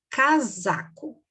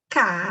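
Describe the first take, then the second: First: Said in the usual way. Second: "casaco" broken into CA... ZA... CO; long pauses between the syllables of "casaco"; split syllables. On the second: Shown as a demonstration. Teacher explaining S between vowels, "casaco" split in three. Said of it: "Nós temos a sílaba".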